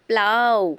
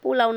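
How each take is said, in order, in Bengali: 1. প্রথম স্বরটি বাদ যায়, তখন হয় 'plau'। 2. শব্দটি প্রথম স্বরটি পুরোপুরি রেখে বলা হয়। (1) "প্লাউ বলতে হবে" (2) "ও সরি, পোলাও না"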